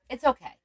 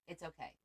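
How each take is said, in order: First: Louder it's okay, pushing through tears; steady herself out loud; emotional self-reassurance. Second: Much softer it's okay, calming herself; whisper-soft reassurance to herself; soft self-soothing. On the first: Host about husband's friend's illness, holding back tears. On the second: Host calming herself after tearing up, softly. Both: Real, not acted. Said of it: "I'm getting emotional about it".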